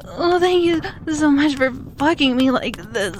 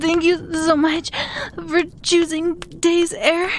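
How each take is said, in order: First: Moaning out the thanks; grateful, lost in pleasure. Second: Polite cabin-crew announcement; chirpy flight attendant script; airline announcement voice. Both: Acted.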